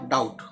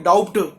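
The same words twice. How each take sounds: First: The b sound is left silent in the word. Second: The b sound is pronounced in the word. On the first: The speaker calls it right. "ये जो बी है ये silent होता है" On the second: The speaker calls it wrong. "हम इसको ऐसे नहीं बोलेंगे"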